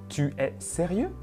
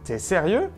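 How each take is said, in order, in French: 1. La voyelle de tu est entièrement prononcée. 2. La voyelle de tu s'élide devant es.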